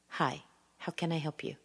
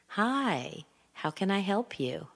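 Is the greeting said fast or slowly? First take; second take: fast; slow. First: It is said quickly and rushed. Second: It is said slowly with varied intonation. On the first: The speaker sounds angry or upset. The speaker calls it wrong. "It's too fast" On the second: The speaker sounds kind and friendly. The speaker calls it right. "slow it down a bit. Make sure that you're getting your intonation where you want it"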